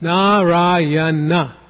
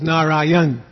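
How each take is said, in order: First: The name is said with four syllables. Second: The name is said with three syllables. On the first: The speaker calls it right. "It's Narayana. Four syllables" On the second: The speaker calls it wrong. "many people have a habit of making it three syllables"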